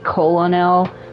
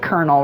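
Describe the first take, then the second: First: The word is said just as it is spelled. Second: The word is said the usual, not-as-spelled way.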